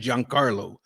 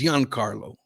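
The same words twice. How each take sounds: First: The name begins with a hard 'j' sound. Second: The name begins with a soft 'zh' sound. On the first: This is how the speaker has been saying it. The speaker calls it wrong. "I've been saying Giancarlo" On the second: This is the listed pronunciation. The speaker calls it right. "I think it's Giancarlo"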